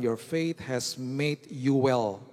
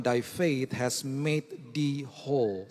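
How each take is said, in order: First: Slow, deliberate English verse; reading scripture slowly. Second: Put-on slow, solemn old English verse; solemn King James reading. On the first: Preacher quoting the NIV verse to the church, slow and deliberate. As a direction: lay out each word of the NIV line. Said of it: "Kalau saudara baca N I V". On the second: Preacher quoting the King James verse, slow and solemn. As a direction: intone it like the King James Bible. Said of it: "Terjemahan King James Version dikatakan". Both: Shown as a demonstration.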